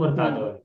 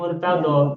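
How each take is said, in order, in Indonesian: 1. Kata murtadon berakhir dengan bunyi n. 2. Kata murtadon berakhir dengan bunyi vokal. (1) "Asalnya Murtadon" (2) "tanwinnya sering dihilangkan menjadi"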